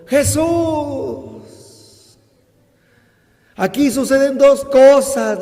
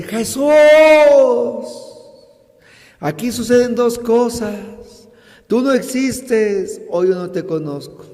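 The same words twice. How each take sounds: First: High, loud cry to Jesus; raised voice. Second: Higher, a touch of reproach; retold, lighter reproach to Jesus; complaining. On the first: Retold or imitated. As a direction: call out to Jesus, voice lifted. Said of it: "levantó la voz y le dijo". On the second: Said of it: "él le reclama y dice".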